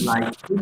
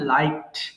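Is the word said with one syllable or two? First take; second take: two; one. First: The ending is said as an extra syllable. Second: The ending is a bare final sound. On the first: The speaker calls it wrong. "এটা কিন্তু লাইক হেড হবে না" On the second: The speaker calls it right. "এটা লাইকড হবে"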